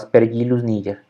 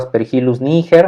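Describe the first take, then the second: First: The name is pronounced with Latin sound rules. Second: The name is read as spelled, Spanish style. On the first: The speaker calls it right. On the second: The speaker calls it wrong. "así como bien escrito"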